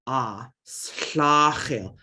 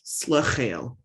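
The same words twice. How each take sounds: First: "slachel" with a wide open A, mouth open more; open A vowel. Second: "Slachel" with a small schwa, mouth barely open; schwa vowel. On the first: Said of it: "So with the A, you're gonna open your mouth". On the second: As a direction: keep the first vowel of "Slachel" short and closed. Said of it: "And with the schwa, you don't really open it as much". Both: Shown as a demonstration.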